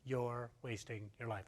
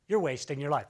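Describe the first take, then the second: First: The phrase is said very slowly. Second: The phrase is said at a normal pace.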